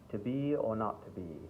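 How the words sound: It is spoken in a mild British accent. "not so, such a thick British accent, but it's sort of standard English"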